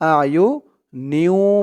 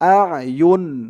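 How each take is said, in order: First: The final n merges into a doubled w sound. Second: The word ends cleanly on an n sound. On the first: The reader continues without stopping. "যদি আমরা এখানে না থামি, আয়ু নিউ বলতে হবে" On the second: The reader stops after this word. "আর যদি আমরা এখানে থামি, বলতে হবে আয়ুন আয়ুন"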